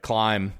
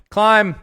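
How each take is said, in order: First: Said in the usual way. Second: Exclaimed title. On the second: Shown as a demonstration. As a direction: CLIMB shouted high and loud. Book title repeated as an exclamation.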